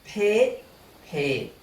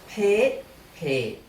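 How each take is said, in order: The two takes are said the same way.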